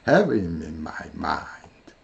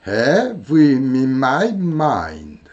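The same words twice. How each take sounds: First: "have him in my mind" slow, lower and softer, one flowing line; low linked rhythm. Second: "have him in my mind" slow and linked, have stressed; linked rhythm. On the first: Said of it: "이렇게 되겠죠". (낮고 부드럽게 이어서) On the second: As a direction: float "have him in my mind" as one phrase. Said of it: "이를 마지막에 들어주겠죠". (느리게 이어서) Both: Shown as a demonstration.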